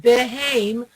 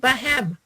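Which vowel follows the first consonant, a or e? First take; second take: e; a. First: The first vowel is an e sound. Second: The first vowel is an a sound. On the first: The speaker calls it wrong. "instead of saying behem" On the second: The speaker calls it right. "we say bahem"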